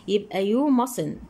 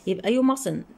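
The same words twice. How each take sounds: First: "you mustn't" drawn out slowly, each word spaced; slow emphatic answer. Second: Said in the usual way. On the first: Shown as a demonstration. Teacher repeats the answer slowly so students catch it. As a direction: spell the answer out slowly for the pupils.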